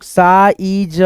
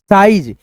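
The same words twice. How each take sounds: First: साइज in slow parts, saa, ee, ja; drawn-out सा-ई-ज for a learner; sounded out. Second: Said in the usual way. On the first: Shown as a demonstration. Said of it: "इसको पढ़ेंगे हम लोग".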